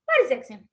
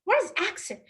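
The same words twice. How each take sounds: First: The stress is on the word what. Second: The stress is on the word accent.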